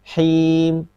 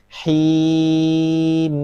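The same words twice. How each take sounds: First: The final m is cut off abruptly. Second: The final m is held moderately, in between. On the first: The speaker calls it wrong. "Kalau syiddah itu seperti ini" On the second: The speaker calls it right. "tapi pertengahan"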